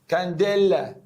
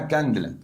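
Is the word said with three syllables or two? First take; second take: three; two. First: A full vowel is sounded between d and l. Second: No vowel is sounded between d and l. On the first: The speaker calls it wrong. "في ناس بتنطق نطق غريب قوي" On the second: The speaker calls it right. "اليه سايلنت شويه"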